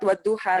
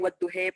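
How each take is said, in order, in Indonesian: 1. Vokal akhirnya adalah bunyi 'a' terbuka. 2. Vokal akhirnya condong ke bunyi 'e'.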